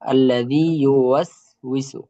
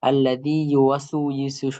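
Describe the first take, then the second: First: The syllable 'was' ends on the consonant. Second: A vowel follows the syllable 'was'. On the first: The speaker calls it right. "ওয়াস হবে" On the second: The speaker calls it wrong. "ওয়াসু শোনা যায়"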